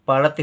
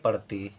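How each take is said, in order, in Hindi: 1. आख़िरी स्वर छोटा है। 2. आख़िरी स्वर लंबा है। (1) "पड़ती हो जाएगा गलत" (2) "हमको चाहिए पड़ती"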